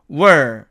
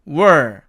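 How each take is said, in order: First: The vowel is weakened to a short uh. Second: The vowel is weakened to a short uh.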